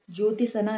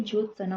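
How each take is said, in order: First: ज्योतिसना with an added ti; extra syllable. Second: Said in the usual way. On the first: Shown as a demonstration. Teacher rejecting a common error, extra syllable. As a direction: put ति into ज्योतिसना. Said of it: "नहीं". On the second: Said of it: "होता है".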